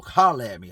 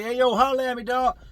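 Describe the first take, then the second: First: Said in the usual way. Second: Higher, louder, challenging "Hey, yo, holler at me, dog"; aggressive callout. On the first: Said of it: "Anytime somebody says one or two things". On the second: Retold or imitated. Inmate calling a rival out to fight, loud and aggressive. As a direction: call him out like it's business. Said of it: "When you look at somebody aggressive".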